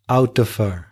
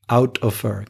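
Both takes have the same delivery.

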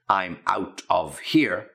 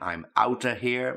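First: Each word is said fully and separately. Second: The words are run together and reduced. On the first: "if you want to put it in its proper pronunciation" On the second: "that's the sort of slang version of it"

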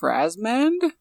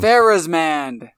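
First: An early vowel sound in the name is left out. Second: An early vowel sound in the name is included. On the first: The speaker calls it wrong. "I think you missed the initial A in that last name" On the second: The speaker calls it right.

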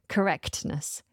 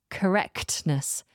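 The two takes are said the same way.

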